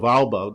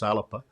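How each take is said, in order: First: No vowel is heard between the L and B. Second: A vowel is heard between the L and B. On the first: The speaker calls it wrong. "my Scots pronunciation of Alba" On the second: The speaker calls it right. "now I've learned to pronounce it properly as Alapa"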